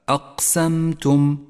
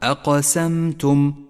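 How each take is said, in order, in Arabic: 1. حرف q مسطح، بلا ارتداد صدوي عند النطق. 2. لحرف q ارتداد قوي بصدى واضح عند النطق. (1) "بدون قلقلة هكذا أقسمتم، حرف غير واضح" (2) "بالقلقلة أقسمتم وضحته وقوته"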